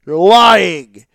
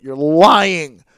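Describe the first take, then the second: First: Much louder repeat, hammering lying; louder accusation. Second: Firm, louder accusation; accusing. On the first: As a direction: shout the accusation back harder. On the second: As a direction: call them out flatly. Ranting at fans of show. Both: Real, not acted.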